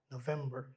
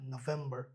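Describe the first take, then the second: The two takes are said the same way.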